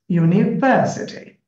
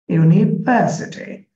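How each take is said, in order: The two takes are said the same way.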